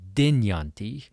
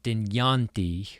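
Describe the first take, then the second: First: The stress falls on the first syllable. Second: The stress falls on a later syllable. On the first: The speaker calls it right. "the emphasis is always on the first syllable of a word" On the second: The speaker calls it wrong. "it's not"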